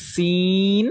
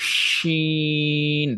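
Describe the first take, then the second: First: সিন slow, s held; slow সিন with a hissing s; drawn-out sin. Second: শিন very slow, sh held long; drawn-out shin. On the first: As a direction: stretch সিন, crisp s. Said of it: "এটা সিন". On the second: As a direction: stretch শিন slowly. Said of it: "যেমন". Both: Shown as a demonstration.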